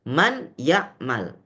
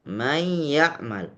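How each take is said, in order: First: The n is pronounced clearly before the y. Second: The n merges into the following y sound. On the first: "dibaca jelas, nunnya harus terdengar" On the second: "nun sudah hilang"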